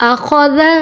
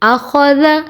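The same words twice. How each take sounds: Both takes have the same delivery.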